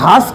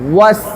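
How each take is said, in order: First: It starts with a v sound. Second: It starts with a rounded-lip w sound. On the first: The speaker calls it wrong. "আমি ভাস কই" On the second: The speaker calls it right. "ঠোঁটটা গোল করে ওয়াস"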